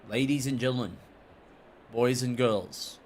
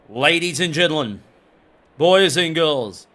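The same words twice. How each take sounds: First: It is said in his normal voice. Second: It is said in an exaggerated announcer voice.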